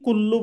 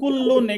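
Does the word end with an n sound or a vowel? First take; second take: vowel; n sound. First: The word ends on a vowel. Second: The word ends with an n sound. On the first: "কুল্লু বললেও সমস্যা নাই, একটা পেশ বাদ হয়ে যাচ্ছে" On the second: "এখানে দুই পেশ হবে আর কি"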